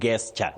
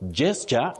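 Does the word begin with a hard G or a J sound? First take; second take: hard G; J sound. First: The word begins with a hard G sound. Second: The word begins with a J sound. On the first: The speaker calls it wrong. "many people innocently mispronounce as gesture" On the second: The speaker calls it right. "the letter is G, but the sound is J"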